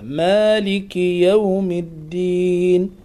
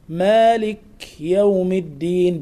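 First: The k is followed by a short i vowel. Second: The k has no vowel after it. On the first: The speaker calls it right. "مع مراعاة كسرة الكاف" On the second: The speaker calls it wrong. "بإسكان الكف، هذا خطأ"

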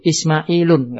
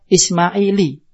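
First: The name ends in u followed by n. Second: The name ends in a plain i vowel. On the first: "enggak bisa" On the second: "tidak bisa dikasro"

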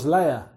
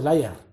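First: The final R is soft, English style. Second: The final R is strongly marked, Spanish style. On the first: "no digo Slayer" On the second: "Con la R pero ahí marcada"

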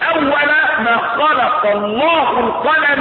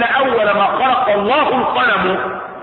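First: The last word ends with an 'a' vowel. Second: The last word ends with a 'u' vowel. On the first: When the pen was created, it was told to write. "يبقى القلم ايه؟ مفعول به" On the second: The pen is the first thing created, a complete statement. "والقلم يبقى ايه؟ خبر ان، مش كده ولا لا؟ مرفوع"

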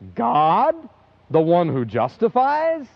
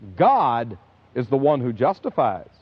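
First: It is said as a question, rising. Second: It is said as a statement, falling.

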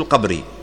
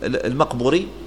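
First: The name is said without an initial 'm' syllable. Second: The name is said with an initial 'm' syllable. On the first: The speaker calls it right. "والصحيح أنه القبري" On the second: The speaker calls it wrong. "يقولوا المقبري"

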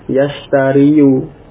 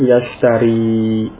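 First: The word ends with a final 'yu' syllable. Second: The word ends on 'ri' with no final vowel. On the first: This is the underlying full form with the case vowel. The speaker calls it wrong. "Jadi aslinya yashtariyu" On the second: The case vowel is implied but not pronounced. The speaker calls it right. "sehingga diucapkan yashtari"

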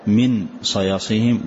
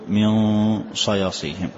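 First: The n is pronounced clearly and separately. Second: The n is hidden with a nasal hum. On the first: The speaker calls it wrong. "ولا تقول كالإظهار من صياصيهم" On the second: The speaker calls it right. "وإنما أظهر الحرف الثاني مع الغنة بدون تشتيت، فأقول"

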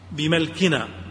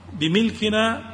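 First: The m is followed by an a vowel. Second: The m is followed by an i vowel. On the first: It means by our ability and capacity. "بفتح الميم" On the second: It means owning the thing. "وأما الكسر"

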